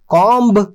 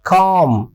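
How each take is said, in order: First: The final b sound is pronounced. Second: The final b sound is silent. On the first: The speaker calls it wrong. "कॉम्ब नहीं" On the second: The speaker calls it right. "इसको अंग्रेज़ी में बोला जाना चाहिए कॉम"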